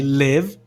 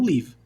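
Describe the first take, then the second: First: LIVE with a lax vowel, near "lev"; short I in live. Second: Live wrongly said as "leev"; mistaken long EE. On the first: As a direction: say live to rhyme with give, not like leave. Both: Shown as a demonstration. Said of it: "E não live".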